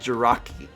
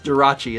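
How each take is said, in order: First: The middle consonant is a 'k' sound. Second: The middle consonant is a 'ch' sound. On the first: The speaker calls it wrong. "I said Jiraki" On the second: The speaker calls it right. "It's it's Jirachi, isn't it?"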